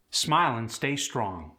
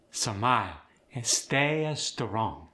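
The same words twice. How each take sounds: First: Said in the usual way. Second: Slow Khmer accent, vowels stretched and added; Khmer-accented, clusters split by extra vowels. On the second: Shown as a demonstration. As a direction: draw it out slowly, Khmer style. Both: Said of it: "Vowels are elongated quite often".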